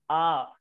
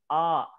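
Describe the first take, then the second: The two takes are said the same way.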